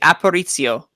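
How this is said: The name is said with an Italian-sounding accent. "you put the like the zzz, like like a very Italian"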